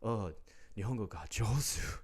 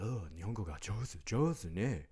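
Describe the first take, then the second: First: Higher, sing-song mock of a condescending compliment; gushing fake praise in Japanese; patronizing praise. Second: Higher, sing-song imitation of an old officer cooing; mock the old cop's gushing compliment; the old cop patronizing him about his Japanese. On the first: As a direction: mimic a patronizing old Japanese man. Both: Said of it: "this patronizing".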